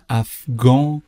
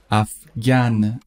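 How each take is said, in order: First: افغان ending in a nasal vowel, no n; French masculine form. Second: افغان ending in a sounded n, "af-gan"; French feminine form. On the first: Teacher shows learners the masculine, افغان with nasal ending. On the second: Teacher shows learners the feminine, افغان with sounded final n. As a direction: slowly say افغان, closing on a clear n. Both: Shown as a demonstration.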